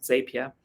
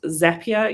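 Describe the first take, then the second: First: "Zapier" said ZAY-pee-er, as spelt; "Zapier" with first syllable rhyming with say; common spelling pronunciation. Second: "Zapier" said ZAP-ee-er, rhyming with happier; "Zapier" with first syllable like zap; official pronunciation. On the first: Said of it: "European English-speaking country calls it Zapier". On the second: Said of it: "apparently it's pronounced Zapier". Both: Shown as a demonstration.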